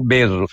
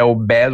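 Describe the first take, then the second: First: The stressed e is said with a closed vowel. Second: The stressed e is said with an open vowel. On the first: "esse é aberto ou fechado" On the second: "esse é aberto ou fechado"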